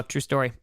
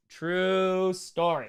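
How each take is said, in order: First: Said in the usual way. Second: Very slow, stretched TRUE; drawn-out repeat. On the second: Real, not acted.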